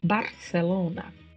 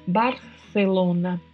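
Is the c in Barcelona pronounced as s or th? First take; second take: s; th. First: The c sounds like an s. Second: The c sounds like th, tongue between teeth. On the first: This is how it is said in South America. "No caso do espanhol da América do Sul, tem som de S mesmo" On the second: This is how it is said in most of Spain. "na Espanha, na maioria das regiões, o C tem uma sonoridade produzida com a língua entre os dentes"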